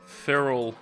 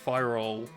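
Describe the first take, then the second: First: The first syllable sounds like 'fair'. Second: The first syllable sounds like 'fire'. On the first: The speaker calls it wrong. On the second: The speaker calls it right.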